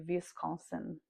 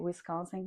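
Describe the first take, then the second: First: It starts with a V sound, Brazilian style. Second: It starts with a W sound.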